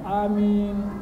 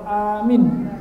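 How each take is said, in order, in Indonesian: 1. Kedua vokal diucapkan panjang. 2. Vokal pertama panjang, yang kedua pendek. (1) "Amin panjang" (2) "amin hanya panjang, minyak pendek"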